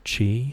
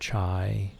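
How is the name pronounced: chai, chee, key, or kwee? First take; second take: chee; chai. First: The name sounds like 'chee'. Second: The name sounds like 'chai'. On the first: "Other people would call him Mister Chi" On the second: "or Mister Chai"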